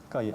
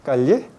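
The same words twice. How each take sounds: First: "calle" said as "ca-ye"; y sound in calle. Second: "calle" with Castilian palatal l, like "ca-lye"; lateral ll in calle. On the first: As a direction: ll turned to a y glide in "calle". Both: Shown as a demonstration. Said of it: "hay diferencia de pronunciación".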